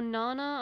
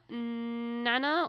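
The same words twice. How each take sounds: First: "Nana" with a long open ah, as in "father"; alternative pronunciation. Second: "Nana" with a short flat a, as in "cat"; first pronunciation. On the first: Host offering another reading of the name, "[name]" said as NAH-nuh. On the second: Host unsure of singer's name, "Nana" said as NAN-uh. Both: Shown as a demonstration. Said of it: "I'm not sure".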